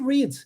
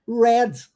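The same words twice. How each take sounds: First: The vowel is not the E of pleasure. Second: The vowel is the E of pleasure. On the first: It is the present tense. "No presente pronuncia-se read" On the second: It is the past tense. "Aí vem com som de E, igual no pleasure"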